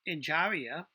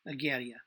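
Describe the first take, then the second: First: The name is said with an English pronunciation. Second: The name is said with an Italian pronunciation. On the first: The speaker calls it wrong. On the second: The speaker calls it right.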